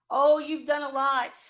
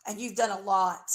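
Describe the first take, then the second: First: Louder, with the stress on "Oh"; emphatic repeat. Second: Said in the usual way. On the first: Real, not acted. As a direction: lean hard into "Oh, you've done a lot". Repeated accusation, second take louder.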